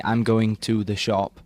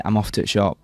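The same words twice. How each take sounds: First: "I'm going to the shop" with every word sounded, unhurried; proper English. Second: Yorkshire "off to the shop", "the" cut to a t; Yorkshire dialect. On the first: Yorkshire lad demonstrating proper English, "going to the shop" fully sounded. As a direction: say "going to the shop" in full, "to the" as two words. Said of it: "in proper English, I would say". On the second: Yorkshire lad showing his dialect, dropped words in Yorkshire accent. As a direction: clip "to the" into "t'" the Yorkshire way. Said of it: "If you're Yorkshire". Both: Shown as a demonstration.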